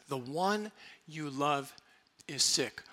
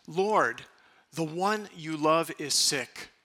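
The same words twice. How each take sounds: First: Softer, slow and lingering; tender echo. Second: Said in the usual way. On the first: Shown as a demonstration. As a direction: savour the phrase quietly. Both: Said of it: "What a beautiful phrase".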